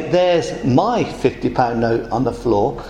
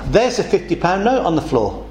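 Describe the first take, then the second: First: "my" leaned on, slower and lower; stress on my. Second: Said in the usual way. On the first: Shown as a demonstration. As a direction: hit the word "my" so it sounds possessive and slow. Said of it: "you're all excluded 'cause it's mine". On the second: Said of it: "But if I say".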